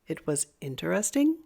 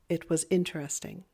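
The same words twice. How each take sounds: First: The pitch rises at the end. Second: The pitch falls at the end. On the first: It is a question. "if we raise the tone at the end, it turns it into a question" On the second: It is a statement giving information. "we want to make sure that that tone drops at the end"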